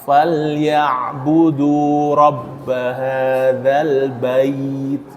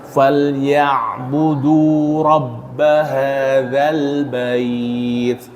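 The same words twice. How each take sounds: First: The final diphthong is pressed hard and forceful. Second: The final diphthong is soft and smooth. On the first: The speaker calls it wrong. "jangan ditekan" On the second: The speaker calls it right. "bait lembut"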